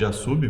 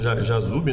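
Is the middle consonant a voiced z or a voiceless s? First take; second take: voiceless s; voiced z. First: The middle consonant is a voiceless s sound. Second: The middle consonant is a voiced z sound. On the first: This may be the original pronunciation. "esse S teria o som de Jassube" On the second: This is how it is said locally in Portuguese. "aqui nós pronunciamos Jazube"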